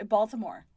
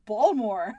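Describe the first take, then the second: First: Said in the usual way. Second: "Baltimore" squashed to two syllables, BAWL-more; local Baltimore pronunciation. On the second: Shown as a demonstration. Cohost showing the accent only locals can do, "Baltimore" as BAWL-more. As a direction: say "Baltimore" louder, dropping the middle "ti". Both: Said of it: "the one that no one can do unless you're from".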